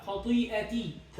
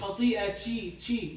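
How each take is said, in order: First: The final ta sounds like a clean 't'. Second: The final ta sounds like 'ch'. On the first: The speaker calls it right. "لا خطيئتي تي" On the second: The speaker calls it wrong. "مش خطيئتي تشي"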